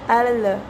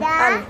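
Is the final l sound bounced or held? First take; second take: bounced; held. First: The l is released with a bounce. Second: The l is held steadily at the end. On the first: The speaker calls it wrong. "sering terjadi pemantulan. Misalnya al" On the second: The speaker calls it right. "kita tahan al"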